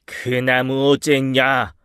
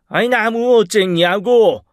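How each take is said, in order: First: Slow, stern demand; lightly acted annoyed boss's question; angry director. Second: High, loud, drawn-out angry demand; exasperated boss raising his voice; furious director. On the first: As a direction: draw the question out accusingly. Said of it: "화가 잔뜩 난 김 이사님". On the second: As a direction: demand an answer, ready to hit. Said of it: "칠 듯이 노려보며 다시 한번 물으셨습니다". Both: A narrator's reading.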